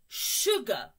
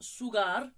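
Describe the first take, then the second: First: The word begins with an sh sound. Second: The word begins with an s sound. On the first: The speaker calls it right. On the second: The speaker calls it wrong. "Not sugar"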